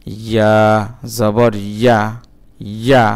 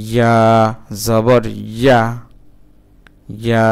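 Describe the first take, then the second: No difference in how they are said.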